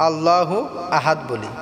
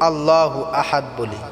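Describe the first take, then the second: Both takes have the same delivery.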